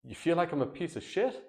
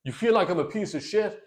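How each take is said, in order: First: "You feel like" raised, "piece of shit" soft, rising unsurely; really trying to understand, quiet and unsure; curious uncertain question. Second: Wrong, accusing tone. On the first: Husband softly mirroring wife's insult with curiosity. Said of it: "listen to the way I'm saying it". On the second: Husband firing wife's insult back in an indignant challenge. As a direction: challenge her, incredulous and combative. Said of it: "It's not like". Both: Shown as a demonstration.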